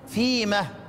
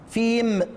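First: The word ends with an added h sound. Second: The word ends on a bare m sound. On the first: This is the variant pausal form of one reciter. "انما هو يقف ايه؟" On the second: This is the ordinary pausal form. "اصل انت لو وقفت عليها بتقول ايه؟"

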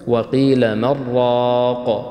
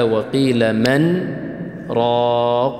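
First: 'Man' runs straight into 'raq' without pause. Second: A brief pause separates 'man' from 'raq'. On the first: Another reading without the brief stop. "هناك قراءة بعدم السكت" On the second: The required reading for this transmission. "فأقف أو أسكت سكتة خفيفة"

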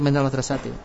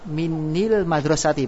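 First: The linking vowel after min is a. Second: The linking vowel after min is i. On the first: The speaker calls it right. "kita pakai minal madrasati" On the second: The speaker calls it wrong. "kalau dibaca kasro menjadi berat"

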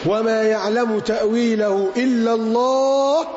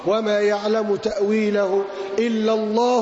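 First: The phrase ends with a full stop after Allah. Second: The phrase runs on without stopping after Allah. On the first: Only God knows its ultimate meaning. "قراءة بالوقف اللازم ... وتم الكلام" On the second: God and those firm in knowledge know its interpretation. "القراءة الأخرى"

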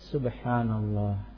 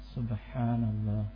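Both takes have the same delivery.

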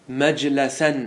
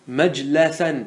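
First: The vowel after the L is 'a'. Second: The same.

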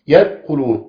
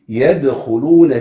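First: The d sound is dropped with no bounce. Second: The d sound is released with a bounce. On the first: The speaker calls it wrong. "يدخلون يبقى الدال وقعت مني خالص وما بقتش موجود، اسمعتوها مني كده" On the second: The speaker calls it right. "لازم اعمل ايه؟ اقلقلها عشان اطلعها من مخرجها، اقول ايه؟"

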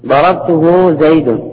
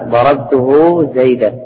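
First: The last word ends with the sound 'un'. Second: The last word ends with the sound 'an'. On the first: The name is the subject of the sentence. "يجوز الرفع" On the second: The name restates the pronoun as the object. "بالنصب"

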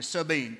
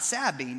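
First: The name is said in the local pronunciation. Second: The name is said in a non-local pronunciation. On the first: The speaker calls it right. "That's how they say it around here" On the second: The speaker calls it wrong. "Not Sabine"

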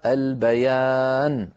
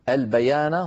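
First: The final n ends with no vowel. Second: The final n carries a short a vowel. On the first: The reciter stops at this word. "ويصير بدلا منها سكون" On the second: The reciter continues without stopping. "فتحة النون تزول"

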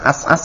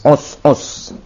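First: The word's vowels are pronounced as 'a'. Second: The word's vowels are pronounced as 'u'. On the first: The speaker calls it wrong. "bukan as-as ya" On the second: The speaker calls it right.

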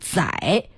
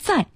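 First: The syllable is said with a dipping tone. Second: The syllable is said with a falling tone. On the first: It loses the original special meaning. The speaker calls it wrong. "现在被改成了三声载" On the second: It carries the sense of carrying or transporting. The speaker calls it right. "念四声载"

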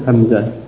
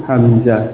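No difference in how they are said.

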